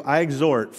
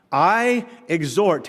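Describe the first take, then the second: First: Said in the usual way. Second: "I exhort" drawn out slowly, weight on "I"; slow emphatic reading. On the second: Shown as a demonstration. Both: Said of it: "must be important".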